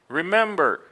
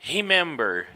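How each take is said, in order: First: The first R has an American English sound. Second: The first R has a Portuguese-style sound. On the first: The speaker calls it right. "in American English, it's always going to be" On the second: The speaker calls it wrong. "most people in Brazil will pronounce these words and they'll say"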